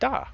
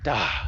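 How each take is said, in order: First: The d is said without a breath of air. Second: The d is said with a breath of air.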